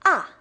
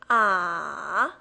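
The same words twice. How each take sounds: First: The pitch falls sharply from high to low. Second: The pitch dips down, then rises. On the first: "It goes from up to down" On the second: "It goes down, then picks up"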